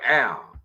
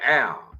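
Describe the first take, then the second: First: The vowel is short, rhyming with 'pal'. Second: The vowel is short, rhyming with 'pal'.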